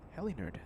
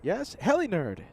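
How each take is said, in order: First: Soft repeat under breath; quiet. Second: Said in the usual way. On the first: Real, not acted. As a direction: murmur the name. Correcting a misread viewer name.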